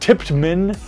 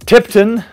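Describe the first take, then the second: First: The name is said as Tiptman. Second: The name is said as Tipton. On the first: "There is Tiptman" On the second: "There's the ever popular Tipton"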